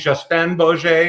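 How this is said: The name is said with a French accent.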